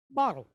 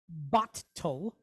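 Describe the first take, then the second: First: The T sound is said once, naturally. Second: The T sound is held and doubled. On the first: The speaker calls it right. "We say bottle" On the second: The speaker calls it wrong. "we don't say bottle"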